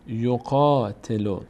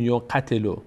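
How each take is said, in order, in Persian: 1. مصوت بعد از q کشیده و بلند است. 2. مصوت بعد از q کوتاه است. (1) "بخاطر این الف میکشیمش" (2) "نمیگیم یقتلو"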